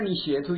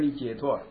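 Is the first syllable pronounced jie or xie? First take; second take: xie; jie. First: The first syllable is pronounced xie. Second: The first syllable is pronounced jie. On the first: The speaker calls it wrong. "他们一点你写脱" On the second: The speaker calls it right. "用解啊，对对对，即是解脱"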